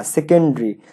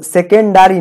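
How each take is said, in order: First: সেকেন্ডারি with the "da" vowel dropped; contracted "se-ken-dri". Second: সেকেন্ডারি with a full "da"; mispronounced "se-ken-da-ri". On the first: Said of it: "আমরা এই উচ্চারণটা ভুল করি". (সেকেন্ডারি, "ডা" না বলে "সেকেন্-ড্রি") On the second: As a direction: say সেকেন্ডারি in four syllables, se-ken-da-ri. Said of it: "সেকেন্ডারি না". (সেকেন্ডারি, স্পষ্ট "ডা" দিয়ে) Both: Shown as a demonstration.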